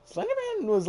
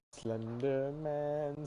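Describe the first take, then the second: First: Name jumps up high and loud, then falls; mock-scared high squeak; sudden squeak. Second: Chanted, slow, drawn-out eerie sing-song; chanted, intone the name slowly like a spooky rhyme; creepy chant. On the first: Back to talking, name squeaked high. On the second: Pretend. Creepy chant of Slender Man.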